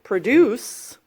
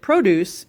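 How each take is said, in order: First: The stress is on the second syllable. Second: The stress is on the first syllable. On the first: It means to make or create something. "If you pronounce it produce, then it's a verb" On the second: It names farm goods like fruit and vegetables. "If you pronounce it produce, it's a noun"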